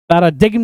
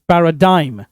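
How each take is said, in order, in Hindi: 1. m से पहले g की ध्वनि सुनाई देती है। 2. कोई g की ध्वनि नहीं; स्वर 'die' जैसा सुनाई देता है। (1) "पैराडिग्म नहीं" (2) "करेक्ट प्रोनाउंसिएशन"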